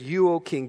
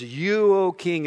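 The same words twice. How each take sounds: First: Said in the usual way. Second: You punched higher and louder; stress on You. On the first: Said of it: "And then they said". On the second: Shown as a demonstration. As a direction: hit the word You hard, flattering the king. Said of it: "let's put some special emphasis".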